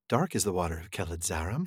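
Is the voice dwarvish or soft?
soft. It is said in a quiet, soft voice.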